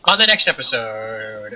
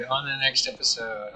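First: Loud outro announcement; announcer outro. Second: Said in the usual way. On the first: Shown as a demonstration. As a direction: boom it out like a host.

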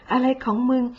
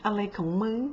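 First: Exasperated repeat. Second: Muttered aside. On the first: Imitating a baffled viewer, now openly exasperated. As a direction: repeat อะไรของมึง with open exasperation. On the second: Imitating a baffled viewer, muttering quietly. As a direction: mutter อะไรของมึง under your breath. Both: Retold or imitated.

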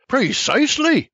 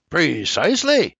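First: High, exasperated shout. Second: Mild snarl. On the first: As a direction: throw out Precisely in high exasperation. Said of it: "Exasperated, I shouts". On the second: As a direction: let Precisely come out as a mild snarl. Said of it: "he snarls". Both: A narrator's reading.

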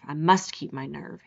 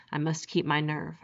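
First: Low, teeth clenched, a bit firmer; through tight teeth. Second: Through tight teeth. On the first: Rainsford steadying himself, low through clenched teeth. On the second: Rainsford alone in the bush, low through clenched teeth. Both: A narrator's reading. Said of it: "he said through tight teeth".

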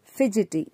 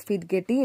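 First: "fidgety" said fij-i-ti; correct "fidgety". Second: "fidgety" with a hard g, fidgeti; "fidgety" said fid-get-ee; wrong "fidgety". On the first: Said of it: "it is read as". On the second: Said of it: "not fidgety". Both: Shown as a demonstration.

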